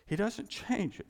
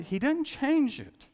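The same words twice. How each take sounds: First: Said in the usual way. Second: "change" drawn out high and slow; emphatic, slow. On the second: Shown as a demonstration. Preacher drives home to congregation, slow and emphatic. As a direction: lean hard on "change".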